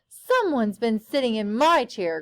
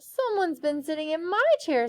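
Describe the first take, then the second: First: It is said in a deep growl. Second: It is said with a weary sigh.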